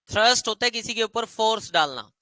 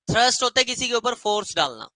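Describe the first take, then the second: No difference in how they are said.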